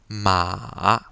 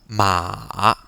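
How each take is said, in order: First: The pitch dips down and then rises. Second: The pitch dips down and then rises.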